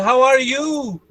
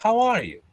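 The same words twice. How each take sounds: First: Un-British intonation. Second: British intonation. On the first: Teacher showing what the British don't say, exaggerated Brazilian intonation. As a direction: stretch "you" high in a Brazilian lilt. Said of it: "And they don't say". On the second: Teacher showing the correct greeting, restrained British intonation. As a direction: say it compactly with a British fall. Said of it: "This is the British intonation". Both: Shown as a demonstration.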